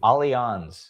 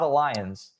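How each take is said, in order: First: It sounds different from the English word alliance. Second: It sounds like the English word alliance. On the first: The speaker calls it right. "that's how you pronounce it" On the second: The speaker calls it wrong. "It's not Alliance, as I thought it was"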